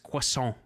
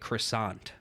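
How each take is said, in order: First: It is said with a French-style pronunciation. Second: It is said with an English-style pronunciation. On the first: The speaker calls it right. "It's croissant" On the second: The speaker calls it wrong. "some dumb shit like croissant"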